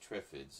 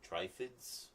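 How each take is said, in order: First: The first vowel is a short 'i' sound. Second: The first vowel is a long 'eye' sound. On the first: The speaker calls it right. "That means it's an iffy sound, not an ife" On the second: The speaker calls it wrong. "he says they should pronounce it Triffids. That sounds more evil"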